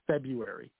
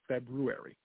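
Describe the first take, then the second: First: The first r after b is dropped. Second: The first r after b is pronounced. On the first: The speaker calls it wrong. "Not February" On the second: The speaker calls it right. "I have to say it correct"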